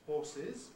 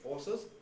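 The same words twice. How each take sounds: First: The ending has a kit vowel. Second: The ending has a schwa vowel. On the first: "I still remains the usual pronunciation in the plural ending" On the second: "use schwa there and say horses"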